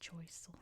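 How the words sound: The name is said with an English pronunciation. "It's pronounced Choiseul"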